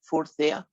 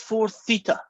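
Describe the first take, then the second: First: Theta is given the American pronunciation. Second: Theta is given a non-American pronunciation. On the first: The speaker calls it wrong. "Americans call that four theta" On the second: The speaker calls it right. "It's four theta"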